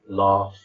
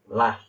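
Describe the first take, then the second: First: It is said in a southern English accent. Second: It is said in a northern English accent. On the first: "in the south we say things like" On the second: "if you go to the north of England, they say"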